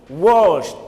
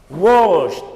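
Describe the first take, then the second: No difference in how they are said.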